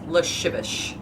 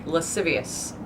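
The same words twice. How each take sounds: First: Slow slushy lascivious as luh-SHIV-ish; lascivious slurred into luh-shivish; Sean Connery. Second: Lascivious as luh-SIV-ee-us; s sounds in the middle and end of lascivious; correct pronunciation. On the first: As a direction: turn every s in lascivious to sh. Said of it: "I just turned into Sean Connery". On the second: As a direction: say lascivious with plain s. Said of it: "In my head". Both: Shown as a demonstration.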